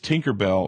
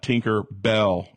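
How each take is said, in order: First: The name is run together as one word. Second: The name is split into two separate words. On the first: The speaker calls it right. "It's not two words. It's always been one word" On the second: The speaker calls it wrong.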